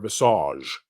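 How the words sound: The word has a French pronunciation.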